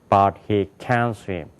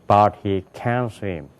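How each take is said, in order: Both takes have the same delivery.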